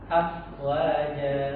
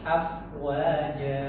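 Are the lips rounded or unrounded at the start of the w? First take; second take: unrounded; rounded. First: The w starts without lip rounding. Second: The w starts with rounded, pursed lips. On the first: The speaker calls it wrong. "Jadi jangan afwaja" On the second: The speaker calls it right. "Jadi dia dari monyong dulu"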